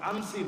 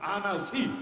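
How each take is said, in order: First: The name is said with two syllables. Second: The name is said with three syllables. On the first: The speaker calls it wrong. "আনসি না" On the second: The speaker calls it right. "না আনাসি"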